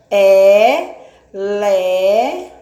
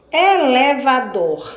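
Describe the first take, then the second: First: Estique "Elevador" sílaba por sílaba, mais alto; "Elevador" bem devagar e arrastado. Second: Said in the usual way. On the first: Shown as a demonstration. (alongando a palavra para as crianças) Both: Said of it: "mais de quatro sílabas".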